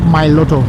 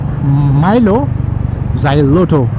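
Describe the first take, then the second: First: The middle syllables are dropped, leaving three syllables. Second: Every syllable, including the middle 'lo xy', is said. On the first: The speaker calls it right. "There is no lo or xy in between. It's straight up [name]" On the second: The speaker calls it wrong. "which I used to pronounce as Milo Xyloto"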